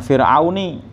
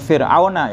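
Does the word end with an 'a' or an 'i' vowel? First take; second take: i; a. First: The word ends with an 'i' vowel. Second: The word ends with an 'a' vowel. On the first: The speaker calls it wrong. "bukan Fir'auni gitu ya" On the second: The speaker calls it right. "Bacanya Fir'auna ya"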